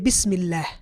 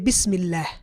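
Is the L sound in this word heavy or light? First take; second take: light; light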